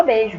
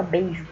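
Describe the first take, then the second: First: Beijo said as "bejo" with the i dropped; swallowed i. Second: Beijo with the full ei glide, bei-jo; careful i. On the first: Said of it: "a gente engole o i". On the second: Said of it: "A gente não fala beijo". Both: Shown as a demonstration.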